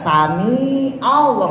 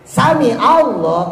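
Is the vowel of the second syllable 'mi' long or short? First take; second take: long; short. First: The vowel in 'mi' is drawn out long. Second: The vowel in 'mi' is kept short. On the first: The speaker calls it wrong. "Atau mi-nya yang panjang, ... nggak boleh" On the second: The speaker calls it right. "pendek, ya, sami-anya pendek"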